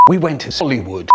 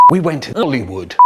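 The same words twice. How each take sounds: The two takes are said the same way.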